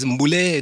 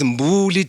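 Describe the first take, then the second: First: The name ends in an eh vowel. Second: The name ends in an ee vowel. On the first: "It's Mbule" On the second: "not willy nilly. It's Mbuli today"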